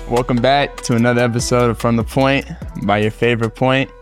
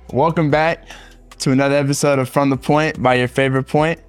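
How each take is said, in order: First: It is said with low energy. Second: It is said with high energy.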